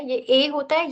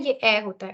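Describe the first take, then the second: First: ए stretched open, like the e in bet; open e sound. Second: ए said tight and closed, like French é; closed e sound. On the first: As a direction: demo the open French ए. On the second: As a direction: demo the closed ए. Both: Shown as a demonstration. Teacher contrasting two e sounds for students. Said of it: "थोड़ा सा difference है".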